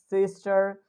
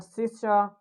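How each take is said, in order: First: "sister" with an American R; American accent. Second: "sister" with British dropped R; British accent. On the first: Teacher lists examples for students, American accent. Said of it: "I'm speaking in American accent". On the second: Teacher shows students the dropped R, British accent. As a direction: end "sister" on an open vowel, British style. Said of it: "If we'll talk about British". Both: Shown as a demonstration.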